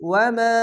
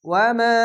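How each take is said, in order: No difference in how they are said.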